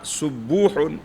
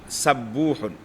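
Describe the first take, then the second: First: The first vowel is an 'u' sound. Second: The first vowel is an 'a' sound. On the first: "dengan harakat dhamma" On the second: "dengan fathah"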